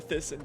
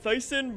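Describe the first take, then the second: First: The first syllable sounds like 'thiss'. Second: The first syllable sounds like 'thice'. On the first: This is the brand's own way of saying its name. The speaker calls it right. "I guess now Thyssen" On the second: This is the speaker's old way of saying the brand. The speaker calls it wrong. "I pronounced it wrong"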